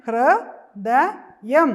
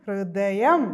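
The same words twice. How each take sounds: First: ഹൃദയം drawn out very slowly and loud; teacher spells out ഹൃദയം slowly for the class; slow sounding out. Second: Said in the usual way. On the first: Shown as a demonstration. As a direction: stretch every syllable of ഹൃദയം. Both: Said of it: "എങ്ങനെയാ വായിക്കുന്നേ".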